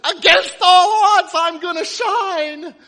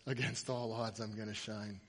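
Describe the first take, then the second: First: Slow, high, full-force yell; final shout. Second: Low, soft, subdued recital; quiet quoting. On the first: Fan being dragged out of restaurant, final shout. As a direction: stretch out every word at top volume. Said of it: "he, he yells out". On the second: Owner telling the player what his tattoo says, quiet. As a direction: drop it right down. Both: Acted.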